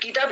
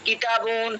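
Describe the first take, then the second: First: The word ends without any added -un sound. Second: The word ends with an added -un sound. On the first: This is the casual everyday form. "আমরা বলি কিতাব" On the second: This is the full formal form. "Actually ছিল মুআল্লিমুন কিতাবুন কলামুন"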